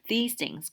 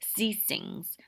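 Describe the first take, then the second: First: It is said with standard English sounds. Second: It is said with French-accented sounds.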